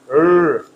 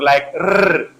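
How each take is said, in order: First: The r is untrilled with the tongue curled back. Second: The r is trilled with the tongue front. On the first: "tongue twists backward and no vibration" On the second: "vibration of the tongue and with the front part of the tongue"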